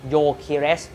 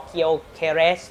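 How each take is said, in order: First: โยเคเรส with a silent G, starting on Yo; correct pronunciation. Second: เคียวเคเรส read with a Kyo sound at the start; mispronounced as Kyo-keres; wrong reading. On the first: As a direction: say โยเคเรส as Yo-ke-res. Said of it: "ตัว G เนี่ยเหมือนตัวการันครับ". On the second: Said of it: "ตอนแรกคนอ่านออกเสียงว่า". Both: Shown as a demonstration.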